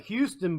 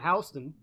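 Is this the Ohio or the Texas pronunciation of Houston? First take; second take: Texas; Ohio. First: It is pronounced the way Texans say it. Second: It is pronounced the way Ohioans say it. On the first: This is the Texas city. "down in Texas, you got Houston" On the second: This is the Ohio town. "up here in Ohio, we got Houston"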